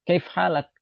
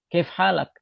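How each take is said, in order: First: Shortened colloquial forms with dropped vowel and -ak ending. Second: The same.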